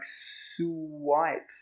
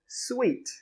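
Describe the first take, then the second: First: The word is said with two syllables. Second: The word is said with one syllable. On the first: The speaker calls it wrong. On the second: The speaker calls it right. "But we actually pronounce it sweet"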